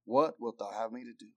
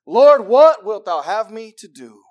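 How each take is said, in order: First: Low, hushed question; humbled awe. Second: Loud, high, slow appeal; emphatic plea. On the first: Preacher reads Saul yielding to the Lord, humbled. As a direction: drop soft and low in surrender. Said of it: "trembling and astonished". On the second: Preacher shows how to come to God, pleading. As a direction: call it out to God, drawn out. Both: Acted.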